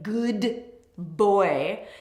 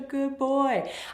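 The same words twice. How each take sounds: First: The D at the end of good is pronounced. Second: The D at the end of good is dropped. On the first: The speaker calls it wrong. "I don't say good boy" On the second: The speaker calls it right. "we naturally end up dropping that first consonant, the D"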